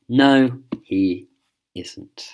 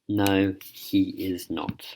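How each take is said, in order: First: The words 'is not' are contracted to 'isn't'. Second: The words 'is not' are said in full. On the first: A casual way of answering. "if we're being informal, we're being more casual" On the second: A formal way of answering. "we don't need to say is not"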